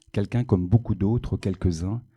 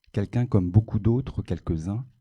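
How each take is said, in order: The two takes are said the same way.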